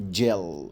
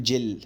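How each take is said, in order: First: جيل slow and low, long dark L. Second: جل with a short, light L instead of dark L; wrong light L. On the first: Teacher correcting the word for pupils, slow dark-L جيل. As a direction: stretch the dark L closing جيل. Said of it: "ما ينفعش اقول جل، لا جيل". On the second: Teacher showing pupils what not to say, a light-L جل. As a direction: mistaken جل, the final L kept light. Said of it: "ما ينفعش اقول جل". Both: Shown as a demonstration.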